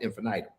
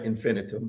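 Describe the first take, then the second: First: The middle vowel sounds like the word 'eye'. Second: The middle vowel is a short i sound. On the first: This is the speaker's own way of saying it. "I call it infinitum, right? Because it has that I in there" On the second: This is how many other people say it. "a lot of people pronounce infinitum infinitum"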